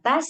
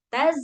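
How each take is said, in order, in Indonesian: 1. Konsonan akhirnya mendesis karena udara keluar. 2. Konsonan akhirnya tertahan, tidak ada udara yang keluar. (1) "kan keluar anginnya" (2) "nggak keluar anginnya karena tertahan"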